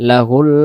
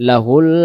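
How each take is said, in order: No difference in how they are said.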